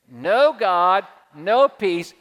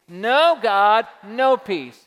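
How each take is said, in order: First: The second part is said with attitude. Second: The second part is said with attitude.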